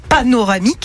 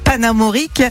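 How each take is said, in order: First: The word is said as pa-no-ra-mique. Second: The word is said as pa-na-mo-rique. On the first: The speaker calls it right. "je pense que c'est panoramique" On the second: The speaker calls it wrong. "on dirait plus le nom d'une pommade antibiotique"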